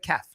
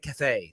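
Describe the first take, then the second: First: The word is said with a plain English accent. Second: The word is said with a French accent. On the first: The speaker calls it right. "Just say caf" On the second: The speaker calls it wrong. "why why you put the French accent on it?"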